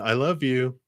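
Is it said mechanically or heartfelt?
mechanically. It is said flatly, by rote, without feeling.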